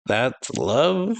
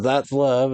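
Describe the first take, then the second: First: "That's love?" with a long steep rise on love; incredulous question. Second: Said in the usual way. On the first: Acted. Moe questions what Sachiko just called love, incredulous question. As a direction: question "love", sweeping the pitch right up. Same words repeated as question.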